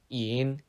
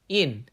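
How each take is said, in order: First: The pitch dips down then rises. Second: The pitch falls sharply downward.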